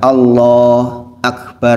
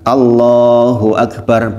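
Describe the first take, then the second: First: There is a break between the two words. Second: The two words run together without a break. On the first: The speaker calls it wrong. "bukan Allah Akbar" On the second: The speaker calls it right. "tidak berhenti di antara dua kata"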